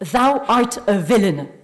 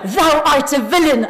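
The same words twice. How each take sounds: First: It is said at normal, softer volume. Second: It is said louder and with more force.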